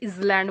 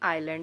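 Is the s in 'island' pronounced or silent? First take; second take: pronounced; silent. First: The s is pronounced as a z sound. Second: The s is silent, with no z sound. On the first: The speaker calls it wrong. "कुछ लोग इसे इजलैंड बोलते हैं" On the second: The speaker calls it right. "नहीं आइलैंड है, एस silent है"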